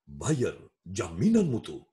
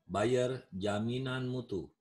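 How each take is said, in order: First: The voice is full, trained and resonant. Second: The voice is plain and unprojected. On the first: People would be persuaded to buy. The speaker calls it right. "harus pakai vokal prima" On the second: Nobody would be persuaded to buy. The speaker calls it wrong. "Ada yang beli?"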